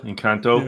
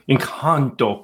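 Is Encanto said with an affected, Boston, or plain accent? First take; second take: plain; affected. First: The word is said in a plain everyday accent. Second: The word is said in an affected foreign-sounding accent. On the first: "can I say it normal" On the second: "I have to say it with an accent"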